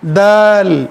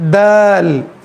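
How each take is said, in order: Both takes have the same delivery.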